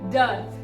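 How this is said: The r sound after the vowel is silent. "R is completely silent"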